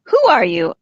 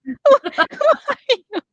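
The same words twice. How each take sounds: First: Said in the usual way. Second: Very high, slow shrill delivery. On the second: Shown as a demonstration. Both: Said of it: "He did not say it that shrilly".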